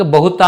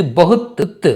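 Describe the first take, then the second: First: బహుతా with a long aa after t; wrong full ending. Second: బహుత్ ending on a bare త్; cut-off final t. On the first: Teacher shows what to avoid, బహుతా ending in taa. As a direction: open the end of బహుతా into a full syllable. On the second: Teacher drills the right ending, బహుత్ closed on త్. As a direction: stop బహుత్ at the t and repeat that t. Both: Shown as a demonstration. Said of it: "బహుతా అనకూడదు".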